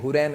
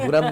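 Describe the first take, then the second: First: The name ends with a 'raim' syllable. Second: The name ends with a short 'ram' syllable. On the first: The speaker calls it right. "ये हुरैम है" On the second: The speaker calls it wrong. "ये हुरम नहीं है"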